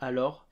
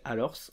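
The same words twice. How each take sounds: First: The final s is left silent at the end. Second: The final s is pronounced at the end. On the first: This is how it is said today. "aujourd'hui on va juste dire alors" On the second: This is an older, dated way of saying it. "va avoir tendance à se prononcer alors, encore que ça c'est une forme vieillissante"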